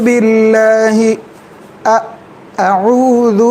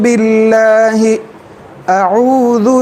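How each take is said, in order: No difference in how they are said.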